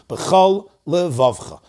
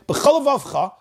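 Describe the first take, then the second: First: A short pause separates the two words. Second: The two words run together without a pause. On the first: Each word keeps its own letters. The speaker calls it right. "take a tiny break, a pause" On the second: The second word seems to lose its first letter. The speaker calls it wrong. "one word sounds like it's missing its opening letter"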